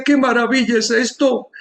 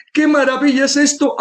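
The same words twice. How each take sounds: First: Amazed exclamation. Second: Amazed exclamation, higher. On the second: Speech therapist marvelling at the patient's voice, higher. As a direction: echo ¡Qué maravilla es esto! pitched up with more wonder. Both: Retold or imitated. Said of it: "levantó las manos y decía".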